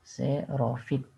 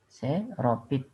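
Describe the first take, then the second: First: The word has an f sound before -it. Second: The word has a p sound before -it. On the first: The speaker calls it right. "Huruf P diganti dengan huruf F" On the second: The speaker calls it wrong. "kata yang tidak baku adalah xeropit"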